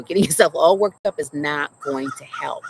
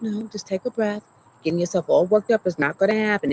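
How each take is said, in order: First: A fond laugh through her mom's words; laughing mama quote. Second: A hint of a firm mother, mildly voiced; mama calming her down. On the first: Retold or imitated. Retelling her mom's calming words to the audience, laughing. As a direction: quote mom again, breaking into a laugh. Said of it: "She's like, you know". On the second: Her mom at the clinic calming her panicking daughter, lightly voiced firm mother. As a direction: lightly play her mom telling her to breathe. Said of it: "that sounds like my mama".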